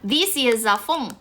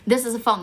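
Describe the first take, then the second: First: The word 'this' has a long ee vowel. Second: The word 'this' has a short i vowel. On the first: The speaker calls it wrong. "this 他会发译成 these" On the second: The speaker calls it right. "This is what I would say"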